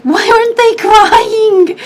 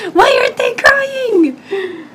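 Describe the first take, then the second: First: High, slow, pleading question; upset, drawn-out question, higher pitch; retold tearful disbelief. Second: High, slow, breaking into a sob; sobbing repeat of the question, much higher; crying repeat. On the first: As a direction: relive the confusion through tears at the funeral. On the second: Retold or imitated. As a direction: let the voice crack as the tears come. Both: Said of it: "I was just bawling my eyes out".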